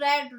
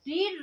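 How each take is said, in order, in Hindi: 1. स्वर एक छोटी e ध्वनि है। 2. स्वर एक लंबी ee ध्वनि है। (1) "बोलते अलग अलग हैं" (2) "फर्स्ट सेकंड थर्ड सेम रहती हैं बस बोलते अलग अलग हैं"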